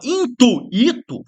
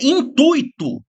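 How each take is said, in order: First: The 'u' and 'i' are split into two syllables. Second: The 'ui' is joined into one syllable. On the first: The speaker calls it wrong. "Se a pessoa fala intuito, forma o hiato. E tá errado" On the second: The speaker calls it right. "ui, forma um ditongo"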